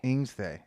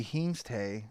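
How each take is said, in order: First: "Ingstay" starting on the vowel, no H; corrected Pig Latin. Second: "Hingste" with an H sound at the front; mispronounced Pig Latin. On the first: Cohost repeating the correction, "Ingstay" begun on the vowel. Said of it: "so it'd be Ingstay". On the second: Cohost attempting Pig Latin, "Hingste" with a mistaken leading H. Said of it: "you said that wrong". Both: Shown as a demonstration.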